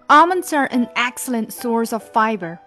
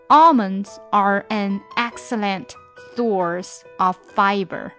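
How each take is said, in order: First: It is read at a normal speaking pace. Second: It is read at a slow, deliberate pace.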